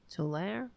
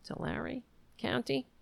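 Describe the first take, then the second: First: Tulare as a soft "tuh-LAIR?"; questioning pronunciation. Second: Tulare as a soft, higher "tuh-LAIR-ee?"; questioning pronunciation. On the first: Host unsure of the county name, Tulare as questioning "tuh-LAIR". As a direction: try out Tulare in two syllables, "tuh-LAIR", rising. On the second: Host guessing at the county name, Tulare as questioning "tuh-LAIR-ee". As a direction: try Tulare with a final ee, rising on County. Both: Real, not acted.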